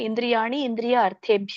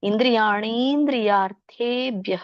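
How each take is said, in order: First: The words are said separately, unjoined. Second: The words are merged into one word. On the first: "ಬಿಡಿಸಿ ಬರೆಯೋದಾದ್ರೆ" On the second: "ಕೂಡಿ ಹೇಳೋದಾದ್ರೆ"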